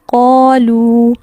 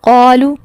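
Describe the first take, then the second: First: The final vowel is long. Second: The final vowel is short. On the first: The speaker calls it right. "यहाँ दुरुस्त अदायगी क्या है" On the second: The speaker calls it wrong. "ये गलत है"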